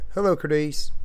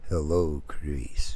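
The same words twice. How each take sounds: First: It is said in a plain, ordinary way. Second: It is said in a creepy, sinister way.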